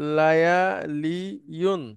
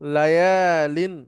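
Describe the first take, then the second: First: The word ends with a full '-iyun' syllable. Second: The ya sound is dropped, ending in '-in'. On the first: This is the original underlying form. "একটা আমাদের সামনে আসলো" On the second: This is the simplified form actually used. "সেটাকে আমরা লায়ালিন এভাবে করে নিলাম"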